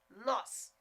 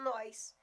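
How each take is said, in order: First: It is said in the standard way. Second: It is said with a regional Goiás accent.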